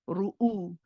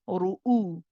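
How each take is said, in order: Both takes have the same delivery.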